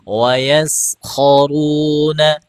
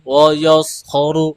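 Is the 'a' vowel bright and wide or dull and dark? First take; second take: bright; dull. First: The a vowel is bright and widely spread. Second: The a vowel is dull and darkened. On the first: The speaker calls it right. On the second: The speaker calls it wrong.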